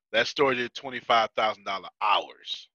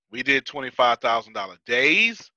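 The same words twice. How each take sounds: First: "hours" landed with a falling tune; stress on hours. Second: "days" lifted in a rising tune; stress on days. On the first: Telling listeners how busy that store was, stress on "hours". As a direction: bring "hours" down firmly as the contrast. Contrasts hourly with daily sales. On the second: Setting his store's takings against the busier one, stress on "days". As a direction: end on "days" with the pitch going up. Contrasts daily with hourly sales. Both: Real, not acted.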